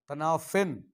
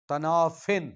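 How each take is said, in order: First: The word ends with an 'in' sound. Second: The word ends with an 'in' sound.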